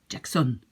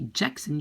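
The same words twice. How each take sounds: First: The stress is on the last syllable. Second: The stress is on the first syllable. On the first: The speaker calls it right. "you very often put the accent towards the end" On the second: The speaker calls it wrong. "you will not say Jackson"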